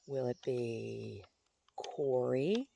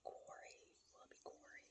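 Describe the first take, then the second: First: Slow question rising on Corey; slow, wondering aloud; musing question. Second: Very soft whisper to oneself; faint, voiceless pondering; whispered musing. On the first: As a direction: draw out the choice, lifting at the end. Musing aloud over a choice. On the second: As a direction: whisper the question almost inaudibly. Repeats the name to herself. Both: Real, not acted.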